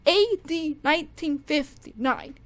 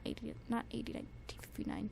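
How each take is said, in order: First: The title called out loud and sure; confident slip, said out loud; blurted wrong title. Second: Fast, unvoiced mutter fixing the title; whispered self-correction. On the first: Calling out the wrong song title loudly. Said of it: "not A D, ... darn it". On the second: Correcting her own slip in a fast whisper. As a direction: whisper the correction under your breath, quickly. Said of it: "darn it". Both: Real, not acted.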